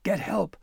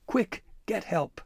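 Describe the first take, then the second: First: High crow voice crying Get out; raucous crow cry. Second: High, slow crow cry stretching Quick; raucous crow cry. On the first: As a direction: squawk the order like a crow. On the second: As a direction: squawk it out slowly and urgently. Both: Acted. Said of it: "the crow's raucous cries persisted".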